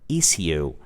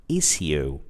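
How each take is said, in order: The two takes are said the same way.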